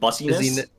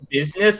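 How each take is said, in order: First: The word is sounded out as spelled, bus-i-ness. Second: The word is said the usual, reduced way.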